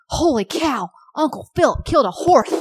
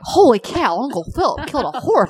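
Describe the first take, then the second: First: Put-on high, bright toddler voice with a lisp; lisping little girl. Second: Put-on higher, louder toddler voice with a lisp; lisping little girl. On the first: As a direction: squeal it like an excited three-year-old. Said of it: "She's like". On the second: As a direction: squeal it like the little niece. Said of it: "I'm like".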